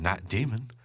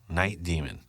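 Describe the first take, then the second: First: The pitch jumps up on 'demon'. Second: The pitch stays level on 'demon'. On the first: The speaker calls it wrong. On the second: The speaker calls it right.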